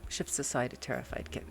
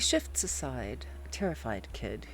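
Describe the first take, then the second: First: There is no pause after 'aside'. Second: There is a pause after 'aside'. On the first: The speaker calls it right. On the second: The speaker calls it wrong.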